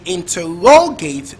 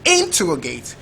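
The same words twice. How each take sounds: First: The stress is on the third syllable. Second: The stress is on the first syllable. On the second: "First label"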